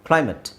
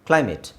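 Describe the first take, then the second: Both takes have the same delivery.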